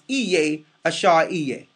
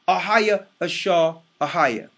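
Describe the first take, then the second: First: The name begins with an 'ee' sound. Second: The name begins with an open 'ah' sound. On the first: The speaker calls it wrong. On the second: The speaker calls it right. "It's right in your face where it says"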